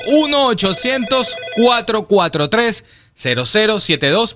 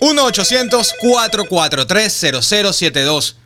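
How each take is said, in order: First: The number is said slowly. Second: The number is said at normal speed.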